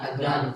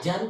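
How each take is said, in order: First: The middle consonant is a th-like sound. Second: The middle consonant is a j sound. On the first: The speaker calls it right. "kan harusnya adan keluar lidahnya" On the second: The speaker calls it wrong. "Orang Betawi ... Ajan udah jadi jim"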